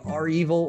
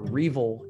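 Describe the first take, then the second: First: It starts with the letter R, then evil. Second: It is said as one two-syllable word. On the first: "Some people literally say are evil" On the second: "everybody generally says Revel"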